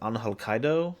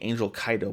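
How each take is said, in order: First: The name is pronounced in a non-English way. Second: The name is pronounced in an English way. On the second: "my silly English brain is saying Angel Kaido"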